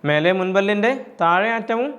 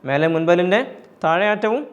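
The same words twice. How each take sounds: No difference in how they are said.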